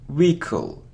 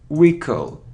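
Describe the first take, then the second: First: The h sound is silent. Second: The same.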